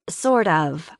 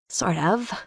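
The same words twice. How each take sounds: First: It is said louder. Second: It is murmured softly.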